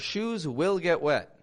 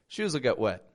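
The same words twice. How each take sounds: First: The word 'will' is said fully and carefully. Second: The word 'will' is reduced and linked quickly. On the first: The speaker calls it wrong. "it sounds too forced" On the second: The speaker calls it right. "You hear how quick that is?"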